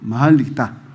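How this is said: It is said in a nasal voice.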